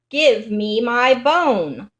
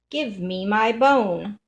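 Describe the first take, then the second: First: It is said loudest of all. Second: It is said softly.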